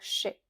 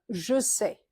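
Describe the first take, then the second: First: The two words are squeezed into one syllable. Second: Both words are said fully and separately. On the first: This is how people commonly speak in France. The speaker calls it wrong. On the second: This is the careful, correct form. The speaker calls it right.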